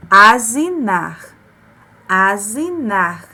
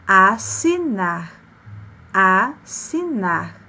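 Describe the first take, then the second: First: Asinar said slowly with a buzzing z, "azinar"; wrong z sound. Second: Assinar said slowly with a hissing s; correct s sound. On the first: Teacher showing how a single S would sound, buzzing z. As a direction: buzz the s in asinar like a z. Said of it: "Se ficasse apenas com um S". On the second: Teacher giving the correct reading, slow hissing s. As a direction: stretch assinar, sharp ss. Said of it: "como é que a gente lê corretamente". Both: Shown as a demonstration.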